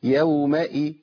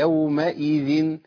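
Both takes have the same delivery.

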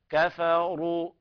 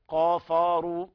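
First: The first consonant is light and thin. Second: The first consonant is heavy and thick. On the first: The speaker calls it right. "كفى هي حرف مستفل" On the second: The speaker calls it wrong. "إذن الخطأ أن يقول قافروا"

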